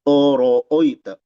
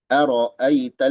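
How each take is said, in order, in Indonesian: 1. Vokalnya dibulatkan mendekati bunyi 'o'. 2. Vokalnya bunyi 'a' yang jelas dan terbuka. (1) "Jangan oro oita" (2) "Tapi a ro a"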